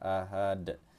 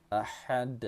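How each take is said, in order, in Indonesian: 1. Bunyi h-nya biasa, berhembus. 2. Bunyi h-nya tegang, dari tenggorokan. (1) "Jangan sampai menjadi huruf ha saja" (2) "itu cara baca yang betul"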